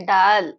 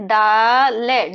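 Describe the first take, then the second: First: Said in the usual way. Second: डाल है split as long, loud "daa", then "le"; sound by sound. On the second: Shown as a demonstration. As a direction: stretch the first sound of डाल है, then add the last. Teacher breaks word into sounds.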